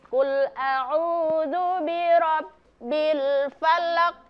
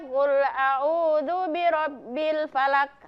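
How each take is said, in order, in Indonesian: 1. Huruf q terakhir dilepas dengan pantulan. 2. Huruf q terakhir dihentikan datar, tanpa pantulan. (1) "Qalqalah ya" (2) "Tidak boleh membaca"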